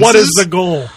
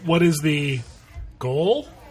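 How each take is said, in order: First: The voice does not rise; it sounds forceful. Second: The voice rises at the end like a question.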